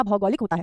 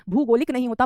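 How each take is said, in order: First: भौगोलिक opened with "bhau"; correct pronunciation. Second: भूगोलिक opened with "bhoo"; wrong pronunciation. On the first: (सही उच्चारण, भौगोलिक में भौ) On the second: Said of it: "भूगोलिक नहीं होता". (गलत उच्चारण, भूगोलिक में भू) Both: Shown as a demonstration.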